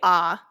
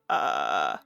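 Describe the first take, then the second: First: The vowel is smooth and plainly voiced. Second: The vowel is said in a low creaky voice. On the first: "I can say ah normally" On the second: "some people might identify as creaky"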